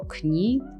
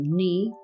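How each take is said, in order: First: The word begins with a k sound. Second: The word begins with an n sound. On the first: The speaker calls it wrong. "jeżeli czytalibyśmy właśnie z K" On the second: The speaker calls it right. "po prostu opuszczamy K"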